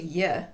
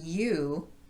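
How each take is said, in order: First: The word is cut to a weak sound. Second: The word has its full vowel. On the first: "to y" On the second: "I'm also reducing you"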